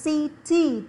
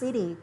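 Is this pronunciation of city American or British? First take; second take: British; American. First: The middle consonant is a clear t sound. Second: The middle consonant is a soft d sound. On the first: "Chữ T là theo giọng Anh" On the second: "còn chữ D là theo giọng Anh Mỹ nha"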